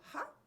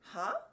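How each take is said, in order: First: It is said in a restrained way. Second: It is said in a big, exaggerated way.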